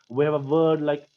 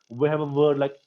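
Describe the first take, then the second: The two takes are said the same way.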